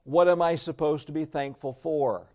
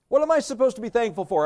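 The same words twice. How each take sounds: First: Said in the usual way. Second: High, quick, protesting question; mock exasperation. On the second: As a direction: play a baffled objector, pitched up and rushed.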